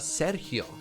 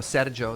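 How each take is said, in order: First: The name is said with a Spanish pronunciation. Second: The name is said with an Italian pronunciation. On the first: "a Spanish uh, Sergio" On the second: "the Italian one"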